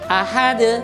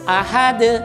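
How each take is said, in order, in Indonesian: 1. Huruf d terakhir berakhir dengan pantulan. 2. Huruf d terakhir berakhir dengan pantulan.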